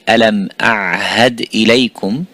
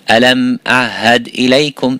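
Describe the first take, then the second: First: Both throat sounds, ain and ha, are pronounced. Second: The ain is dropped; only ha is pronounced. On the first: "Instead of saying" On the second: "dropping the ain and saying the ha"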